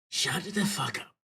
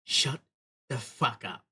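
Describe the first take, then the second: First: Slow, put-on character voice; his voice. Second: Said in the usual way. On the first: Redoing the character's threat in his proper voice. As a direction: growl it out as him, slowly. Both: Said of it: "that's not his voice".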